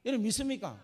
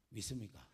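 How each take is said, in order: First: Rousing question. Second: Hushed question. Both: Real, not acted. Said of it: "repeated altar call".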